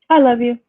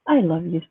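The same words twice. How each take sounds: First: It is said flatly, without warm feeling. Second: It is said warmly, with sincere feeling. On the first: The feeling is not genuine. "Very different" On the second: The feeling is genuine. "there's some authenticity to it"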